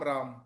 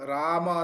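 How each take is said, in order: First: The word ends on the m consonant. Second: The word ends with a final a vowel. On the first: The speaker calls it wrong. "ಎಲ್ಲಿ ಅಕಾರ ಇದೆ ಅಲ್ಲಿ ಅಕಾರನೇ ಇರಬೇಕು" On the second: The speaker calls it right. "ರಾಮ ಅನ್ನುವಲ್ಲಿ"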